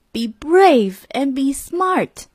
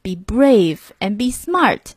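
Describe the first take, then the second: First: Repeated higher, slow and set apart; the motto echoing in his head. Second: Said in the usual way. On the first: A narrator's reading. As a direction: echo the motto higher like a memory. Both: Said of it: "he remembered his grandpa's secrets".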